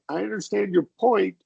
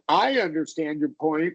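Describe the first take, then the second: First: The stress falls on the word point. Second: The stress falls on the word I.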